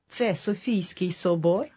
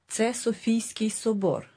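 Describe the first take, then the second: First: It is said with question intonation. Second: It is said with statement intonation.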